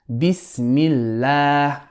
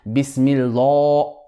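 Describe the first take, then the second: First: The l is light, said with an empty mouth. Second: The l is heavy, said with a full mouth. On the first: The speaker calls it right. "la flat" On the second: The speaker calls it wrong. "you do not say Bismillah. That is wrong"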